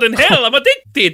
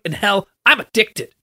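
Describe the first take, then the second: First: It is said in a put-on Italian accent. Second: It is said in the speaker's ordinary accent.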